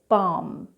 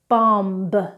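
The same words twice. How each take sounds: First: The final b sound is silent. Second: The final b sound is pronounced. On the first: The speaker calls it right. "then correctly" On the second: The speaker calls it wrong. "incorrectly first"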